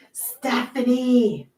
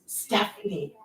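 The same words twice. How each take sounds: First: Slow, stretched calling of Stephanie; drawn-out name. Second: Said in the usual way. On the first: Real, not acted. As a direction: draw the name out like a greeting.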